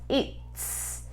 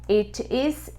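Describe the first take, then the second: First: Said contracted into one short syllable. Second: Said as two separate full words.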